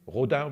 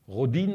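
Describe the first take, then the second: First: The name is said with a French pronunciation. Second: The name is said with an English pronunciation. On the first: "we say in French" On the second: "as you would say"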